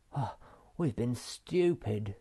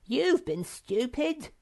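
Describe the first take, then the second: First: Rueful. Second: High, slow, squeaky put-down; smug whiny correction; accusing Sniff. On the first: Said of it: "said Moomin Troll suddenly". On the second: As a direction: point the finger. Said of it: "said Sniff". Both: A narrator's reading.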